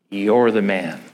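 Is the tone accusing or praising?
accusing. It is said as a serious accusation.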